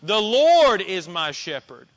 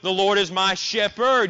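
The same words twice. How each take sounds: First: The stress is on the word Lord. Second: The stress is on the word shepherd. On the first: "You could place the emphasis on the word Lord" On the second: "Or you could place it on the word shepherd"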